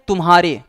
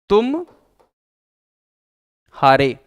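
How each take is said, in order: First: It is said smoothly without any break. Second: It has a short pause after tum. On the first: It means yours. "बिना व्यवधान के, बिना रुके" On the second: It means you lost. "थोड़ा सा रुक करके बोल दें"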